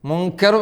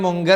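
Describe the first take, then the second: First: The consonant after the n sounds like k. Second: The consonant after the n sounds like g. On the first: The speaker calls it right. "മുങ്കർ പറയണം" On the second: The speaker calls it wrong. "മുങ്കർ പറയാൻ പാടില്ല"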